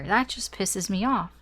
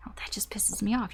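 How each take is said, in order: First: Said in the usual way. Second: Soft whisper, no voice at all; whispered aside. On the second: Retold or imitated. Reader repeating the client's annoyance as a whisper. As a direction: breathe it like a private grumble.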